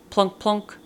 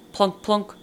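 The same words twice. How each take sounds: The two takes are said the same way.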